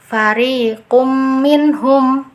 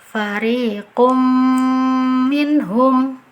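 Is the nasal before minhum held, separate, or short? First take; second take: short; held. First: The m merges but without a held nasal. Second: The m merges with a nasal held two counts. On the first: The speaker calls it wrong. "tidak ada dengungnya di situ" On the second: The speaker calls it right. "Cara baca yang betul"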